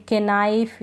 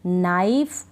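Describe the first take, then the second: First: केनाइफ with a K syllable before the N; K wrongly sounded. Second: नाइफ starting straight on the N, no K; silent K. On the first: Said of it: "इस तरह से नहीं". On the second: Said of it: "इसको pronounce नहीं कर रहे". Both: Shown as a demonstration.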